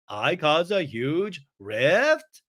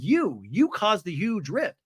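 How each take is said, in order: First: Very slow, drawn-out question; incredulous echo. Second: Mock accusation, slightly raised pitch; Brittany. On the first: Retold or imitated. Accused friend throws it back, in slow mock disbelief. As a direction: stretch "huge rift" into a disbelieving question. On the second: Woman blaming her friend, in slow mock accusation. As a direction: press slowly on "You", then state it. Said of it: "And Brittany's like".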